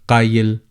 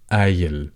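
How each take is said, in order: First: It begins with a deep k-like sound. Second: It begins with a glottal stop. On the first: "pronounce the letter qaf qaf as it should be" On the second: "pronounce the letter qaf as the glottal stop"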